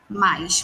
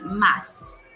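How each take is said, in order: First: It is elongated with an added i, Rio accent. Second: It is short, in a São Paulo accent.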